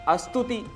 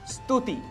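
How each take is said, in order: First: An extra vowel sounds before the s. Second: The word starts directly with the s sound. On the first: The speaker calls it wrong. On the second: The speaker calls it right.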